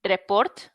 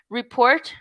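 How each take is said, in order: First: "report" with a rolled r and a clear e; teacher imitates a Spanish speaker saying "report"; Spanish-style report. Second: Teacher shows the English "report". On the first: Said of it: "we would say". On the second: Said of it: "let's just say". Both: Shown as a demonstration.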